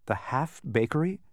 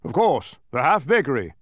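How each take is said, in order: First: Puzzled, rising "half bakery"; questioning. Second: Loud, falling "half bakery"; snapping king. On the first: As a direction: ask "half bakery" higher, lifting at the end. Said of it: "questioned Milo". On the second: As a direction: snap "half bakery" back as obvious. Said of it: "snapped the king". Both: A narrator's reading.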